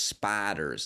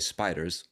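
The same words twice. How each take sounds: First: The word imitates the other woman's accent. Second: The word is in the speaker's own accent. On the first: "whereas she says spiders" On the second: "I would say spiders"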